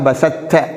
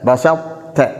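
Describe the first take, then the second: First: The first consonant disappears into the second. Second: Traces of both consonants are heard together. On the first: The speaker calls it wrong. "பூரணமான இதுகாமாக" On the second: The speaker calls it right. "இந்த தாவுடைய சவுண்டும் வர வேண்டும், இரண்டும் சேர்ந்து வர வேண்டும்"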